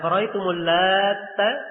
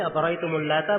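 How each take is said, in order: First: The t in Lata is doubled and held. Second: The t in Lata is short and single. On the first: It refers to a man who kneaded bread dough. "Kalau dibacaan di tasydid ta'nya" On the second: "Kalau Al-Lat tanpa tasydid"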